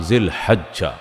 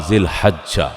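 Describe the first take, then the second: The two takes are said the same way.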